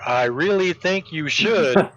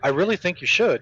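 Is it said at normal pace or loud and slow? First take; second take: loud and slow; normal pace. First: It is said louder and more slowly. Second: It is said at normal loudness and pace.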